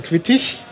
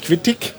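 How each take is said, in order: First: "Quittich" ending in a soft ich-sound. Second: "Quittig" ending in a hard g. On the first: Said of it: "nicht Quittig, sondern Quittich". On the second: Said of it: "also nicht Quittig". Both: Shown as a demonstration.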